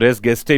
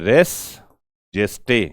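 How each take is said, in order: First: Gestae begins with a hard G sound. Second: Gestae begins with a J sound. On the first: "कुछ लोग इसको रेस गेस्टे भी बोल देते हैं" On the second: "ऐसा आप लिखिए"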